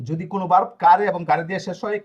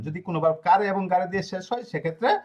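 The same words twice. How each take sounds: First: Said in the usual way. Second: Dictation pace. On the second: Shown as a demonstration. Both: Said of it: "খাতায় এভাবে note করবেন".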